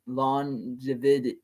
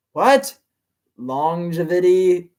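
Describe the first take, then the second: First: Said in the usual way. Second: Longevity asked slowly with a rising, puzzled tone; puzzled question. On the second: Real, not acted. Reader puzzled by the villain's word, slow baffled question.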